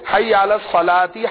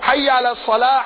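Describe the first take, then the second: First: The last word ends in a vowel, joined onward. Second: The last word stops, followed by a pause. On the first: The speaker calls it wrong. "یہ جناب جو اقامت میں پڑھتے ہیں" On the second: The speaker calls it right. "اصل سنت کیا ہے؟"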